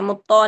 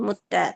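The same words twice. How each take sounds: First: The t sound is heavy and thick. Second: The t sound is light and thin. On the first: The speaker calls it wrong. "मुत्ता नहीं" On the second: The speaker calls it right. "ता बारीक रखें"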